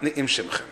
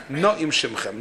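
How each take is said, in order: First: "Ni'im Shemchem" with i, as Donash wrote; wrong form. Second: "Na'im Shemchem" with a in the first syllable; correct grammar form. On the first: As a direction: say "Ni'im" as nee-eem. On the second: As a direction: say "Na'im" as nah-eem. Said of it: "By way of dikdik, it should have said". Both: Shown as a demonstration.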